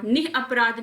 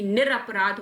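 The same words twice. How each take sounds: First: निः अपराध split as "nih apraadh"; breathy h and a break in निः अपराध; "nih" apart from अपराध; wrong unjoined form. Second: निरपराध said "nir-apraadh"; one word, निरपराध, with "nir"; correct joined form. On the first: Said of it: "निः अपराध नहीं". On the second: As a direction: link with an r in निरपराध. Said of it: "निरपराध होता है". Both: Shown as a demonstration.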